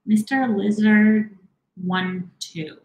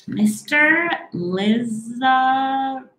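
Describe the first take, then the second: First: "Lizard" read slowly with a closing D, a bit higher; second try at the name, "Lizard" slow and higher; unsure pronunciation. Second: "Liza" stretched right out, higher, feeling for the name; unsure pronunciation. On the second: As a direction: sound out "Liza" very slowly, pitched high. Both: Real, not acted. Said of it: "I don't know if I'm saying that right".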